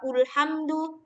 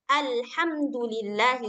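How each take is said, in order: First: The word begins with the vowel u. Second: The word begins with the vowel a. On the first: The speaker calls it wrong. "nggak dibaca ulhamdu" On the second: The speaker calls it right. "harus senantiasa berbaris atas"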